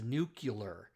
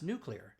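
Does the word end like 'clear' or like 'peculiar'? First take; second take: peculiar; clear. First: The ending sounds like the end of 'peculiar'. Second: The word sounds like 'new' plus 'clear'. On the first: The speaker calls it wrong. "people pronounce the word nuclear as nuclear" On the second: The speaker calls it right. "Say new, clear, just really fast"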